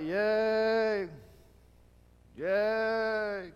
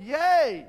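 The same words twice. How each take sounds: First: Hollow higher yay without conviction; insincere cheer. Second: Loud, much higher heartfelt yay; real victory shout. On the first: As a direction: cheer because you're supposed to. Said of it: "But they don't mean it". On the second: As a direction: cheer meaning every bit of it. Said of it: "And they're shouting". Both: Retold or imitated.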